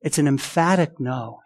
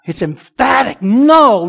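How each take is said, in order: First: Said in the usual way. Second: Loud, higher, stretched-out NO after "emphatic"; slow down and hammer "emphatic" and "no"; emphatic refusal. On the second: Shown as a demonstration. Preacher driving home Paul's answer, "emphatic" and "no" punched emphatically.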